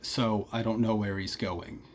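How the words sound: The O vowel glides as a diphthong. "a standard American accent might say something more like"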